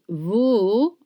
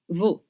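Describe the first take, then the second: First: The vowel is dragged out and long. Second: The vowel is short and clipped. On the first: The speaker calls it wrong. "it's not veau" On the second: The speaker calls it right. "it's veau"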